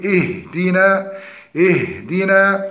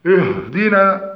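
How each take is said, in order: First: "اهدنا" with thin hamza and ha, clear i under the dal; correct light pronunciation. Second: "اهدنا" with thick, heavy hamza, ha and final alif; heavy mispronunciation. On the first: Teacher models the correct word, light letters in اهدنا. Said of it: "فالصحيح ترقيق الهمزة والهاء". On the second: Teacher demonstrates the common error, heavy letters in اهدنا. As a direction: say "اهدنا" slowly, darkening its vowels. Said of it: "تفخيم همزة الوصل مع الهاء". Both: Shown as a demonstration.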